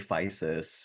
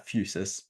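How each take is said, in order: First: The first vowel is a plain 'i' sound. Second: The first vowel is a rounded 'u' sound. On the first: This is how many people say the name. "people say Physis or whatever" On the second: This follows the Greek letter upsilon. "kind of like the French U sound"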